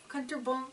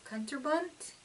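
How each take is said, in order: First: Kunterbund said with a soft ending, no clear T; fumbling first attempt at Kunterbund, trailing off at the end; unsure Kunterbund, ending swallowed; wrong German try. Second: Kunterbunt with a crisp final T, questioning rise; tentative Kunterbunt, T clearly sounded; corrected German word. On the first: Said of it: "I'm going to probably butcher this". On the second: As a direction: try Kunterbunt again, landing the T hard. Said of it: "I think that's a T". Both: Shown as a demonstration.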